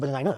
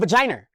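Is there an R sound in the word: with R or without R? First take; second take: without R; with R. First: The word is said without an added R sound. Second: The word is said with an added R sound.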